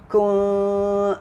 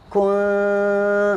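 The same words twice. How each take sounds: First: The nasal sound is thinned only with a slight hint. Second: The nasal sound is thinned with an exaggerated grin. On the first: The speaker calls it right. "isyarat menipiskan ikhfa dia" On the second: The speaker calls it wrong. "tu sengih sangat"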